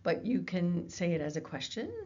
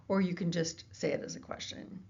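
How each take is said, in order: First: Rising at the end, like asking; question tune. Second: Falling at the end, like a flat assertion; statement tune. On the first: Lecturer showing students how a question sounds, rising tune. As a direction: let it lift on "question" as a real query. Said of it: "if you want to say a question". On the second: Lecturer showing students a plain assertion, falling tune. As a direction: drop the pitch down on "question" to state it. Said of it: "you can say the exact same words". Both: Shown as a demonstration.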